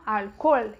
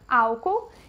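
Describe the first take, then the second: First: The stress is on the last syllable. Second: The stress is on the first syllable. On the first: This is the Spanish pronunciation. "que é a última, que é a sílaba forte" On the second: This is the Portuguese pronunciation. "a sílaba tônica é diferente do nosso"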